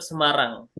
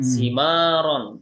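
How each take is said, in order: First: The word is read as 'Semarang', ending in 'rang'. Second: The word is read as 'Simaron', ending in 'ron'. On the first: This keeps the name's original pronunciation. The speaker calls it right. "kita bacanya tetap Semarang" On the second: This follows the Arabic spelling literally. The speaker calls it wrong.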